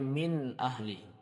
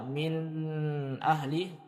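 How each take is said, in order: First: The nasal hum on the n is brief. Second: The nasal hum on the n is drawn out. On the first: The speaker calls it right. "Dikeluarkan sedikit dengungnya" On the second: The speaker calls it wrong. "Jadi kita tidak membaca"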